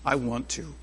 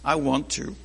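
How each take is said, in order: First: It is said in a joyful tone. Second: It is said in a joyful tone.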